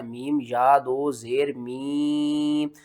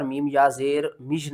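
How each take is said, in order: First: मीम या दो ज़ेर मी with a long held ee; measured मीम या दो ज़ेर मी, last vowel drawn out; correct spelling-out. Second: मीम या ज़ेर मिज with a short, closed last syllable; wrong spelling-out. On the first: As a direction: stretch मी slowly with no j at the end. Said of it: "यहाँ पर मीम या ज़ेर मिज नहीं करना". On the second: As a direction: cut मिज short on a j sound. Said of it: "नहीं करना". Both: Shown as a demonstration.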